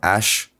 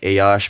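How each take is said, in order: First: The word is said with the vowels blended. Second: The word is said with both vowels separate. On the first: This is fast informal speech. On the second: This is formal speech.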